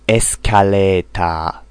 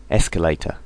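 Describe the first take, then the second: First: "Escalator" with pure vowels and a full final a; "Escalator" said the Japanese way, esukareetaa; "Escalator" as a katakana word; Japanese loanword style. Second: Said in the usual way. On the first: Shown as a demonstration. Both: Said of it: "Japanese English".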